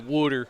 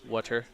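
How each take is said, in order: First: The first vowel is a hard, rounded O. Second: The first vowel is a plain, unrounded sound. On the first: The speaker calls it right. "it's a hard O too" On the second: The speaker calls it wrong. "say water. No"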